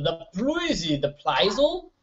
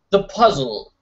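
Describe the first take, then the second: First: Slow, soft, stretched the puzzle; singsong slow the puzzle; drawn-out puzzle. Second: Said in the usual way. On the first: Pretend. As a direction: draw out the puzzle slowly and playfully. Drawn out silly repeat.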